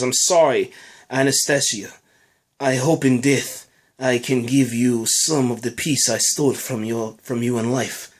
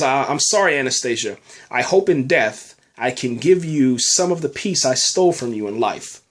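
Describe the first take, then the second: First: Deliberate, lower-pitched mock Russian accent. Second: Said in the usual way. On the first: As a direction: read it with a put-on Russian accent. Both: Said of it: "That was my, you know, Russian accent".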